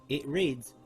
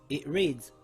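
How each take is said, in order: No difference in how they are said.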